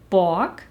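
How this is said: The vowel sounds like an o. "Ebenso rede ich von"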